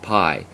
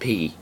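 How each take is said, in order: First: The vowel is an 'eye' sound. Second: The vowel is a long 'ee' sound. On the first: This is the English slang pronunciation of the letter. The speaker calls it wrong. "not pi. Pi is an English slang sort of pronunciation" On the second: This is the Greek pronunciation of the letter. The speaker calls it right. "It is pronounced P"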